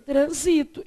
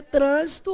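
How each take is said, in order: First: "Transito" stressed on SI, the verb; stress on second syllable. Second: "trânsito" stressed on TRÂN, the noun; stress on first syllable. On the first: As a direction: say "Transito" as tran-SI-to. (tônica em SI: "Transito") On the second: (tônica em TRÂN: "trânsito") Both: Shown as a demonstration. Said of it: "Você pode ler de duas maneiras".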